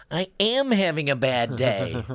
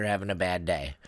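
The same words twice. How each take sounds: First: Imitating an upset kid, high and slow with AM leaned on; mock-tearful, drawn-out protest from a little boy; teary child. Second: Said in the usual way. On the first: Seven-year-old son answering his mother, teary protest. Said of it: "he got a little bit teary-eyed". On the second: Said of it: "She goes".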